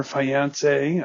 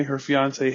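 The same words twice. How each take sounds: First: Fiancé said as "fye-AHN-say", first vowel like "eye"; odd fiancé. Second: Said in the usual way. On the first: Shown as a demonstration. Podcaster jumps ahead in the plot, oddly stretched fiancé. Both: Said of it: "I don't know why I said it that way".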